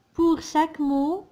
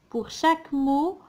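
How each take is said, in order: Both takes have the same delivery.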